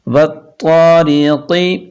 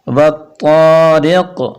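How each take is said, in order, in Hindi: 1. शब्द छोटी हरकत पर खत्म होता है। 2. शब्द साकिन हर्फ़ पर खत्म होता है।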